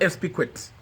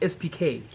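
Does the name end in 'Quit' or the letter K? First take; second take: quit; letter K. First: The name ends with the syllable 'quit'. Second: The name ends with the letter 'K'. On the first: The speaker calls it wrong. "it's not S P Quit" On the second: The speaker calls it right. "His name is S P K"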